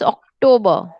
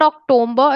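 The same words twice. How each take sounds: First: No m sound comes before the b. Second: An m sound comes before the b. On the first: The speaker calls it right. "it's October" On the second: The speaker calls it wrong. "But it's not October"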